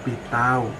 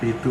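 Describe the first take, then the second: First: The word ends in an 'au' diphthong. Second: The word ends in a plain 'u' vowel. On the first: This is the Banyuwangi dialect form. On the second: This is the standard Javanese form.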